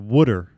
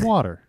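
First: The word has an unusual regional pronunciation. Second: The word has a standard, ordinary pronunciation. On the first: This is how the speaker said it growing up. The speaker calls it wrong. "I, of course, grew up saying for H2O, it was called water" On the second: This is how the speaker says it now. The speaker calls it right. "I say water. Like a normal human being"

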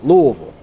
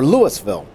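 First: The name is mumbled, syllables run together. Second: The name is said clearly, every syllable distinct. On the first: This is how locals say it. "almost like they got a couple marbles in their mouth" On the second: This is how outsiders say it. "many people will pronounce Louisville"

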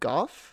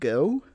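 First: The name is said the European way. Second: The name is said the American way, like go. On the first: This is how it is said in Europe. "in certain things that are produced in Europe, they pronounce it Gogh" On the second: This is the standard way to say it here. "Over here, we pretty much standardly pronounce it go"

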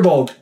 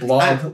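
First: The vowel comes before the L sound. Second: The vowel comes after the L sound. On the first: The speaker calls it right. "That sounds better anyway" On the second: The speaker calls it wrong. "I've been saying like blog, like a blog"

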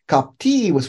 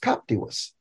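First: The stress is on the second syllable. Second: The stress is on the first syllable. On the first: The speaker calls it right. "it's because the I is long" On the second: The speaker calls it wrong. "I thought at first, why didn't it pronounce captivus?"

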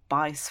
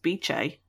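First: The middle consonant sounds like 's'. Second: The middle consonant sounds like 'ch'. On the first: The speaker calls it wrong. "I was saying Bice for a long time" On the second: The speaker calls it right. "which is pronounced Beche"

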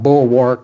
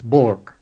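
First: Every sound of the word is fully pronounced. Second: The word is said with reduced, shortened sounds. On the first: The speaker calls it wrong. "It's not bulwark" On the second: The speaker calls it right. "it's bulwark"

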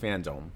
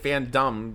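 First: The second syllable sounds like 'dome'. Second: The second syllable sounds like 'dumb'. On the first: The speaker calls it right. "It's pronounced dome" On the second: The speaker calls it wrong. "I would say it FanDome, but it's not dumb"

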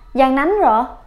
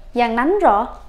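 Both takes have the same delivery.

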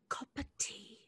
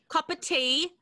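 First: It is said more softly and gently. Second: It is said at a normal, firmer volume.

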